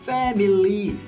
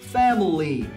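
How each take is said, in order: First: The middle vowel is a full, clear 'ee' sound. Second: The middle vowel is a weak, relaxed schwa sound. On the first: The speaker calls it wrong. "중간에 I와 Y를 둘 다 이 발음으로 하세요" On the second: The speaker calls it right. "이 단어의 제대로 된 발음은요"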